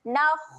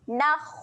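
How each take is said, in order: First: The final kha sounds heavy, with rounded lips. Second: The final kha sounds heavy, with rounded lips.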